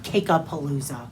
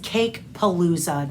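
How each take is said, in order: First: An extra 'a' syllable comes between Cake and Palooza. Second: Cake runs straight into Palooza with no extra syllable. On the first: The speaker calls it wrong. "not Cake-a-Palooza" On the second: The speaker calls it right. "I think it's just Cake Palooza"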